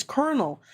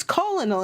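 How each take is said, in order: First: "colonel" said "KER-nel"; colonel as kernel. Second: "colonel" said "COL-o-nel", three syllables; colonel as spelled. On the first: People correcting the streamer, "colonel" as "kernel". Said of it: "then they're like". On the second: Streamer recalling old misreading, "colonel" as "col-o-nel". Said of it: "I thought it was colonel". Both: Shown as a demonstration.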